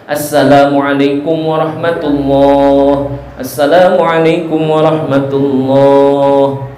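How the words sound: Short greetings with a brief pause between them. The speaker calls it right. "Dan juga jangan panjang-panjang, dan jedanya juga jangan terlalu lama"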